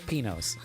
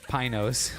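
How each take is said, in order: First: The name is said with a Spanish-style pronunciation. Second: The name is said with an anglicized pronunciation. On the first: This is how the local Spanish speaker says it. The speaker calls it right. "so it's Pinos" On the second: This is how English speakers say it. The speaker calls it wrong.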